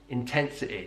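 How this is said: The final vowel is a short, lax i. "the I sound on words ending in Y"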